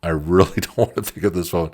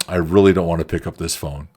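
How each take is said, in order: First: Laughing dread. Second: Reluctant dread. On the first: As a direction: repeat it laughing through the words. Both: Retold or imitated. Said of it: "I'm looking at the phone like".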